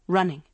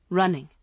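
No difference in how they are said.

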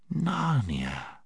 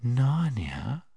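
First: Sweet quiet voice. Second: Sweet whisper. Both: Acted. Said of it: "speaking in a sweet, quiet voice".

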